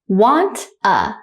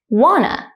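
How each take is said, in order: First: The two words are said slowly and separately. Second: The two words are run together quickly. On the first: "one time slowly" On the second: "at a normal speed, like a native speaker"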